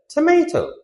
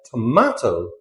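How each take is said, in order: First: TOMATO as "tuh-MAY-toh"; American pronunciation. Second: TOMATO as "tuh-MAH-toh"; British pronunciation. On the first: Teacher shows what Americans call it, AY pronunciation. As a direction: say TOMATO with an AY in the middle. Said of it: "Americans call it a tomato". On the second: Teacher shows what British people call it, AH pronunciation. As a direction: say TOMATO with a long AH in the middle. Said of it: "British people call it a tomato". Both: Shown as a demonstration.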